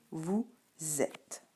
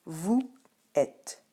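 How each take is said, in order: First: "vous êtes" as vou, zèt; spoken form with liaison. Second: "vous êtes" split, "êtes" starting on the vowel; written form, no liaison. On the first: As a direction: begin "êtes" with a clear z after "vous". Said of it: "Mais à l'oral, c'est". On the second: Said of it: "À l'écrit, je vais te dire". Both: Shown as a demonstration.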